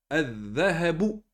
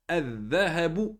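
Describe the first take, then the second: No difference in how they are said.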